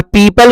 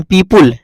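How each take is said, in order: First: पीपल, long "pee" then an unrounded "pul"; correct "people". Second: पीपुल, second vowel rounded to short u; mispronounced "people". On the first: Teacher modelling the word for students, पीपल with neutral second vowel. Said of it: "जबकि पीपुल उपुल नहीं होता है". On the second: Teacher quoting how some people say it, पीपुल with rounded u. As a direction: say पीपुल with an "oo" sound before the l. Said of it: "कुछ लोग तो पीपुल बोलते हैं". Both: Shown as a demonstration.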